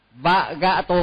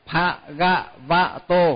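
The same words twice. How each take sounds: First: "Vagato" said with the bh dropped to a plain v, as a common mistake; wrong pronunciation. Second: "Bhagavato" slow, with an aspirated bh at the start; correct pronunciation. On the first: Teacher mimicking the common mistake "Vagato". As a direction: clip the start into "Vagato", mimicking a careless reader. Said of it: "đọc trật ấy". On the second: Teacher modelling the correct "Bhagavato" for students. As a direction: draw out "Bhagavato" carefully, bh sounded. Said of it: "phải phát âm cho thật đúng". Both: Shown as a demonstration.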